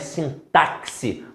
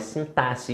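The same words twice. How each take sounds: First: The middle consonant is said as ks. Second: The middle consonant is said as ss. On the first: The speaker calls it wrong. "Não é sintaxe, como muita gente fala aí, não" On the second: The speaker calls it right. "Com som de dois S's"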